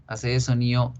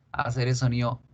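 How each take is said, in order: Both takes have the same delivery.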